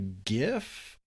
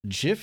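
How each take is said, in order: First: The word starts with a hard g sound. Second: The word starts with a j sound. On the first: "I call it a GIF" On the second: "GIF is the peanut butter with a J"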